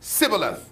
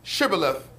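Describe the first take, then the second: First: The word begins with a plain s sound. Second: The word begins with a breathy sh sound. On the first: The speaker cannot produce the required sound and is exposed. The speaker calls it wrong. "because they couldn't pronounce the breath" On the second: The speaker produces the required sound and passes. The speaker calls it right. "with the breath, which is the aspirate"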